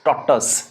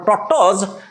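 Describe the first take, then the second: First: The word ends with an s sound. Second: The word ends with a z sound. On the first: The speaker calls it right. "But this is टटोस" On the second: The speaker calls it wrong. "Not टटोज"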